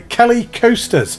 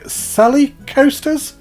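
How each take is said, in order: First: The name begins with a hard K sound. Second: The name begins with a soft S sound.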